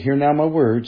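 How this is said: It is said in a soft, sweet, coaxing tone. The listener is being soothed and made to feel loved. The speaker calls it wrong.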